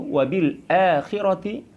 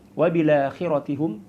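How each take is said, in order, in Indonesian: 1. Ada hamzah sebelum akhira. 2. Kata-katanya tersambung tanpa hamzah. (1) "memanjangkan huruf hamzah dan menyebutkannya" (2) "tidak menyebut huruf hamzah"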